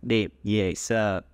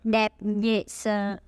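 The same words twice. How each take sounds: First: Slow repeat after teacher. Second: Slow model phrase. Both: Shown as a demonstration. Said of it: "let's repeat after me".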